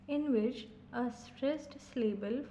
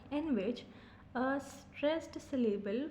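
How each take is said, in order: Both takes have the same delivery.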